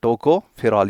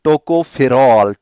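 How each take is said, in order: First: Said in the usual way. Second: Slowly spelled term. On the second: Shown as a demonstration.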